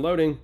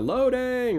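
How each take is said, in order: First: The word is said short and normally. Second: The word is stretched out and loud.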